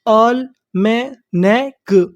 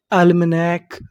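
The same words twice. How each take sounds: First: Almanac very slowly, in separate syllables with the final k apart; slow teaching breakdown of almanac. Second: Said in the usual way. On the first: Shown as a demonstration. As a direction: break almanac into isolated sounds. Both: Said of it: "तो meaning क्या बनी हमारी".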